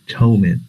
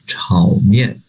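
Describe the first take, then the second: First: It is said with an English-style pronunciation. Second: It is said with a Mandarin pronunciation and tones. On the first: The speaker calls it wrong. "But this is not Chinese pronunciation" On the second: The speaker calls it right. "The Chinese pronunciation is"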